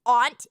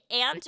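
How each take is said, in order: First: "aunt" rhyming with font; aunt as ahnt. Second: "aunt" rhyming with pant; aunt like ant. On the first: Offering the other option, "aunt" said as ahnt. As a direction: say "aunt" with an open AH. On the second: Asking chat which they say, "aunt" said as ant. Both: Shown as a demonstration. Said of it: "Do you say aunt or".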